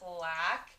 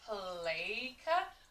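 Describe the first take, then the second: First: Short a vowel with a hard k sound. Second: Long a vowel with a hard k sound. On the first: "C says ka ... doesn't seem like it sounds right" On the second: "A can also say A ... doesn't quite sound right either"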